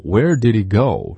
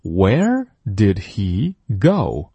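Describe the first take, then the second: First: Where did he go fast, h swallowed; 快读吞音; fast connected. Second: Where did he go slowly, every sound; 慢速领读; slow model read. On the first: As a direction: blur it fast so the h drops. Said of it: "所以当你说快的时候". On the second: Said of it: "再次跟读". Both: Shown as a demonstration.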